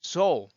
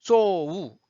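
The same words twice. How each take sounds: First: "So" closed with a dark L, short and loud; intended dark L. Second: "so, 우" drawn out with a loud separate "우"; wrong L as 우. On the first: Teacher models the L they want, compact dark-L "So". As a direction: end "So" on a dark L, no separate "우". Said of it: "내고 싶죠". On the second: Teacher shows what L is not, exaggerated "so, 우". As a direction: stretch "so" into a full, exaggerated "우" vowel. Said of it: "이게 아니고요". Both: Shown as a demonstration.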